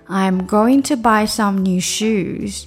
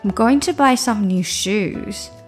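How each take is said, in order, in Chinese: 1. 这句话说得比较慢。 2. 这句话说得比较快。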